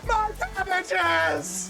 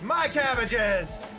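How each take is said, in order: First: It is said in a full put-on character voice. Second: It is said in a plainer, less committed voice.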